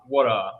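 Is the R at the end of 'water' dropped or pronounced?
dropped. The final R sound is dropped. "and not water"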